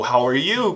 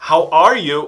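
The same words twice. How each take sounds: First: "how are you?" with "are" reduced, leaning on "you"; stress on you. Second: "how are you?" with "are" said fully and stronger; stress on are. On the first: Teacher offers the casual form, weight on "you". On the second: Teacher offers the careful form, weight on "are". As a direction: bring out "are" in the question. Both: Shown as a demonstration. Two forms offered as alternatives.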